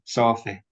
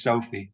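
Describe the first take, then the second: First: "Sophie" with the final E laxed to short I; lax happy vowel. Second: Said in the usual way. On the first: Shown as a demonstration. Lecturer using daughter's name as example, lax ending. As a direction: end "Sophie" on a short, open I. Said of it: "it becomes I". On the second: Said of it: "what's called happy vowel".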